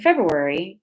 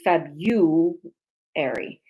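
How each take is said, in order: First: The r after the b is clearly pronounced. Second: The r after the b is left out. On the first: The speaker calls it right. "the R U in February" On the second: The speaker calls it wrong. "in the Midwest, they mispronounce"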